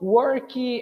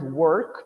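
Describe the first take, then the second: First: An extra ee vowel follows the final k. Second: The word ends cleanly on the k sound.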